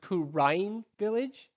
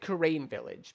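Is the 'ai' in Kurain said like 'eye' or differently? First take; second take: eye; differently. First: The 'ai' is said like the word 'eye'. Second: The 'ai' is not said like 'eye'. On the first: The speaker calls it right. "it's pronounced Kurain Village, like A I, like Ein" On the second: The speaker calls it wrong. "I always pronounce it Kurain Village because that's just how it's spelt"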